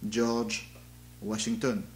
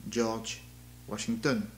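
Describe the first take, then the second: First: It is spoken with a French accent. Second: It is spoken with a French accent.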